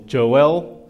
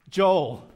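First: The name is said as two syllables. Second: The name is said as one syllable.

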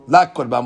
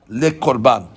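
First: The first word has a full open 'a' vowel. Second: The first word has a short, reduced schwa vowel. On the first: The item is declared not an offering. "la korban with a patah" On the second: The item is declared a sacrificial offering. "If you say it with a sheva underneath it"

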